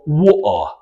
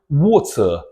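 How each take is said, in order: First: The middle T is a glottal stop. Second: The middle T is fully released. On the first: "through a stop sound" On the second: "they will pronounce it water"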